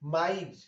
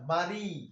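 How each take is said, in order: First: The i vowel comes before the consonant. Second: The i vowel comes at the end. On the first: "রসিকারটা উচ্চারণ হইল মারি থেকে মাইর" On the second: "মারি বলতে কিন্তু শব্দের শেষে রসিকার আসে"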